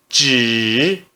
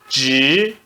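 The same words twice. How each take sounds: First: The syllable is said with the third tone. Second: The syllable is said with the second tone. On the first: "No terceiro tom" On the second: "No segundo tom"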